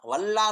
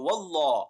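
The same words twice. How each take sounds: First: The L in the word sounds thin and light. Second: The L in the word sounds full and heavy. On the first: The speaker calls it wrong. "वल्लाह नहीं पढ़ेंगे" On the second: The speaker calls it right. "लफ्ज अल्लाह मोटा पढ़ा जाएगा"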